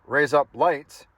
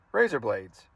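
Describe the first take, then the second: First: Slow, deliberate "raise up lights" as Australian for razor blades; mock Australian accent. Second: Said in the usual way. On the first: Shown as a demonstration. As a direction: spell out an Australian accent in sound-alike words, slowly. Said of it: "how to pronounce things in Australian accent". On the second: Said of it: "it sounds like".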